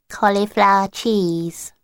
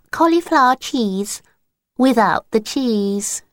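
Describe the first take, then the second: First: Slow, sly "Cauliflower cheese" in a lightly voiced little girl; wrong password. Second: Higher, earnest "Cauliflower cheese without the cheese", slowing at the end; corrected password attempt. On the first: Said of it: "neither is cauliflower cheese". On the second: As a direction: try to fix the password with a straight face. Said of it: "can't even say the password properly".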